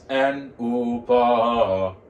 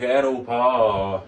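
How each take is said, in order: First: The voice dips down then comes back up. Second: It is said smoothly without a dip. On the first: The speaker calls it right. "go down a little bit and then come back up" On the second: The speaker calls it wrong. "Instead of saying like and pa, no"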